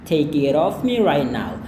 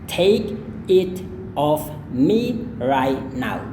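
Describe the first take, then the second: First: The sentence is said at a faster pace. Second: The sentence is said at a slower pace.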